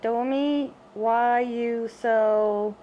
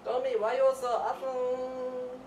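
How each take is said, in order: First: Put-on lingering slow baby-talk opener; slow drawn-out coo. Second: Put-on high, loud gushing baby talk; loud high coo. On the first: Owner cooing slowly at the cat Domi. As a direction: stretch it slowly, cooing at the pet. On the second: Owner loudly gushing over the cat Domi.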